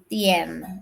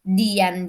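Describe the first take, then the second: First: The first consonant is a voiceless t. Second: The first consonant is a voiced d. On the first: The speaker calls it right. "seperti ini, tien. Nah, yang benar adalah T I E N" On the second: The speaker calls it wrong. "Dian juga"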